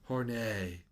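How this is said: The name is pronounced like a French word.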